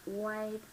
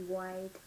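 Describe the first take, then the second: The two takes are said the same way.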